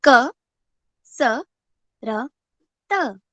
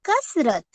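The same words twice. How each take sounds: First: क, स, र, त spelled out one letter at a time; teacher spells out the consonants. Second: कसरत said as one word with a falling end; teacher blends the letters into the word; blended word. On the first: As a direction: sound out each consonant. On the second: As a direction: join the consonants into कसरत. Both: Shown as a demonstration. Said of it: "पहले व्यंजन देखते हैं".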